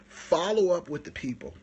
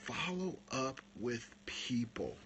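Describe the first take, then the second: First: Said out loud after the whisper; louder take of the same tip; loud repeat. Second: Slow whispered secret; hushed tip on following up. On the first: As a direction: announce it to everyone. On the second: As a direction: let them lean in for the secret. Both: Shown as a demonstration. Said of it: "Here's the magic".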